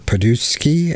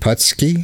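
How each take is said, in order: First: The surname is stretched with an extra middle syllable. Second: The surname is said plainly with two syllables.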